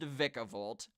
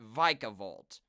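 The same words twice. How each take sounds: First: The first vowel is a short I. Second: The first vowel is a long I. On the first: "say it's pronounced Vikavolt" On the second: "They pronounce it with a long I there"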